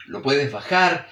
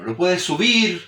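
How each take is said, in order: First: Slow, voice dropping on "bajar"; lowered tone. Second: Slow, voice lifting on "subir"; raised tone. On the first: Teacher demonstrating tone variation, lowered tone on "bajar". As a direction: let "bajar" sink to illustrate it. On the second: Teacher demonstrating tone variation, raised tone on "subir". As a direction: lift the pitch on "subir" to illustrate it. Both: Shown as a demonstration. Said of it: "Tú puedes variar el tono".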